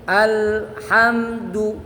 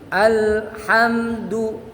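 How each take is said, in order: No difference in how they are said.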